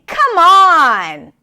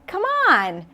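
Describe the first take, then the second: First: It is said in an exasperated, frustrated tone. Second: It is said in a warm, encouraging tone. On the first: The speaker cannot believe what was just said. "when you're frustrated with someone or upset" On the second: The listener is being urged to join in. "when you're trying to encourage someone"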